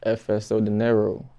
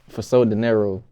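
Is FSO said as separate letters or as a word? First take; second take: letters; word. First: FSO is said as three separate letters. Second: FSO is said as a word, like for so. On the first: The speaker calls it right. "the correct way to pronounce your stage name" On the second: The speaker calls it wrong. "They be like"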